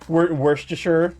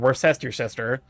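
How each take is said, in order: First: The word is pronounced the usual way. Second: The word is pronounced in an odd way.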